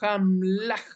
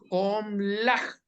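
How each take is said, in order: First: The first vowel is pronounced as a. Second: The first vowel is pronounced as o. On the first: The speaker calls it wrong. "no decimos Hamlaj" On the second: The speaker calls it right. "nosotros decimos Homlaj"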